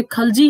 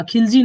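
First: "खलजी" pronounced khal-jee, short 'a' first; correct pronunciation. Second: "खिलजी" pronounced khil-jee, short 'i' first; wrong pronunciation. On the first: Teacher correcting the class, correct pronunciation "खलजी", khal-. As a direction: insist on "खलजी" with khal, not khil. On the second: Teacher rejecting the class's version, wrong pronunciation "खिलजी", khil-. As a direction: show the faulty "खिलजी" with khil. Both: Shown as a demonstration. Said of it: "गलत बोलते हो".

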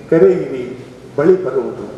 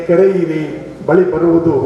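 No difference in how they are said.

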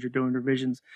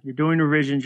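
First: Softer, trailing off to a hush; fading repeat. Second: Said in the usual way. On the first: Shown as a demonstration. Host repeating a principle to guest, fading softly. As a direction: let the last "you're doing revisions" fade away softly.

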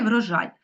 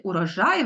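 First: "врожай" said with an initial v, no vowel before it; v-form of the word. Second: "урожай" said with a clear initial vowel u; u-form of the word. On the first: Teacher to class, giving the v-form "врожай" with an initial v. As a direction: begin "врожай" straight on the v. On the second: Teacher to class, giving the u-form "урожай" with a clear u. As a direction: start "урожай" on an open u sound, rising at the end. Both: Shown as a demonstration. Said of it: "так, можна сказати".

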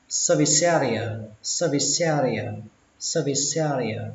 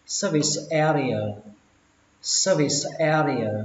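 First: Service area with the s running into area; linked words. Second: Service area with a small break between the words; separated words. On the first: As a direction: join the s of service onto area. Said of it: "các bạn nối chữ sờ với chữ e". (nối âm sờ với e) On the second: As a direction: keep service and area apart. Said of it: "thì các bạn đọc là service". (tách rời hai từ) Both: Shown as a demonstration.

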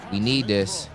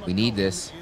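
Both takes have the same delivery.

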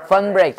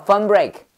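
First: Fern break with a rounded er vowel in Fern. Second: Fun break said with a plain short u vowel, like the English word fun. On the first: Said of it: "발음 비슷해". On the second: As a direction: fun break as the memory-trick version, vowel like fun. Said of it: "fun break라고 외워도 돼". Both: Shown as a demonstration.

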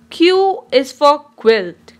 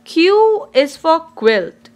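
The two takes are said the same way.

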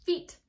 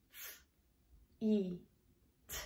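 First: Said in the usual way. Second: "F", long "E", "T", each sound alone. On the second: Shown as a demonstration. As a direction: softly sound out "F, E, T" with pauses. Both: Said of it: "E, E in the middle".

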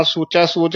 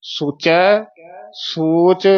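First: ਸੋਚੈ ਸੋਚ quickly with no pause; run together. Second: ਸੋਚੈ, a clear pause, then ਸੋਚ; paused. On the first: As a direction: wrongly join ਸੋਚੈ to ਸੋਚ. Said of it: "ਇਕੱਠਾ ਨਹੀਂ ਕਹਿ ਦੇਣਾ।". (ਸੋਚੈ ਸੋਚ ਇਕੱਠਾ) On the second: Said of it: "ਇੱਥੇ ਯਮਕ ਲਾ ਦੇਣੀ". (ਸੋਚੈ, ਸੋਚ ਯਮਕ ਲਾ ਕੇ) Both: Shown as a demonstration.

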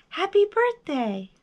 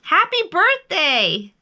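First: High echoed greeting, less forceful; high held-back reply. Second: High, loud, slow greeting; big drawn-out birthday call. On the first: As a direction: answer like a distant echo. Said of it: "his own voice echoed". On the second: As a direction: holler it slowly across the distance. Bear calls across to the moon. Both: A narrator's reading.

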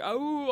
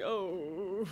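First: High, drawn-out howling oh; mock wolf howl on oh. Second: Said in the usual way. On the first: Shown as a demonstration. Showing how a wolf would howl the oh. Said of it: "instead of going". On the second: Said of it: "I'm going".

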